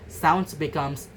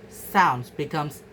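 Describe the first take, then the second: No difference in how they are said.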